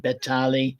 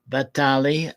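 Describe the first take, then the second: First: The name begins with a B sound. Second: The name begins with a V sound. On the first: "sometimes the name is spelt beginning with a B" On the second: "sometimes with a V"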